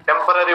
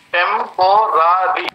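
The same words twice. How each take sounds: First: Said in the usual way. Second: टेम्पोररी broken into four separate sounds; टेम्पोररी in four spaced beats; syllable by syllable. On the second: Shown as a demonstration. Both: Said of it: "three, four sounds आएगा".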